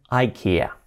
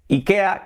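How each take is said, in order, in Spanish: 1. Se pronuncia a la manera inglesa, eye-KEE-uh. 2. Se pronuncia con vocales españolas, ee-KEH-ah. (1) "en inglés dicen IKEA" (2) "que decimos aquí en España"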